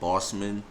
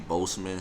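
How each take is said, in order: First: The first syllable sounds like 'boss'. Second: The first syllable sounds like 'bose'. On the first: The speaker calls it wrong. "I look at it being said like" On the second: The speaker calls it right. "some people say Boseman, so I think the correct way is Boseman"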